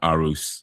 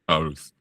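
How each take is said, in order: First: The name ends sounding like 'R Us'. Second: The name does not end like 'R Us'. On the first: The speaker calls it wrong. "I thought it was going to be pronounced Arus, you know, like Toys R Us" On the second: The speaker calls it right. "it is Aarhus"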